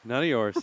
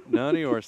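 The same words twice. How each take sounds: First: Said in the usual way. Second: Squeaky high "None of yours" with a rising end; mock high. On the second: Shown as a demonstration. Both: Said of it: "repeated line".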